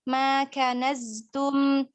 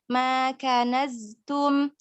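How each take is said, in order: The two takes are said the same way.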